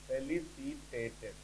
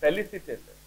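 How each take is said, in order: First: ଫେଲିସିଟେଟେଡ୍ dictated slowly and softer; slow dictation. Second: Said in the usual way. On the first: Shown as a demonstration. Teacher dictating to students, ଫେଲିସିଟେଟେଡ୍ slow and soft. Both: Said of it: "sentence ନବା ଯେମିତି".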